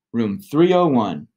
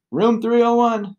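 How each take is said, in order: First: Said in the usual way. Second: Called out from offstage; from another room. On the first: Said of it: "I think". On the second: A narrator's reading. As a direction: shout it from the next room. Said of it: "called out from the other room".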